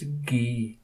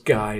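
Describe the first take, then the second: First: The name is said with a French pronunciation. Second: The name is said with an English pronunciation. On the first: "the French pronunciation of the name Guy is Guy" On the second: "an English movie director"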